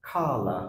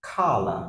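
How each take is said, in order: The two takes are said the same way.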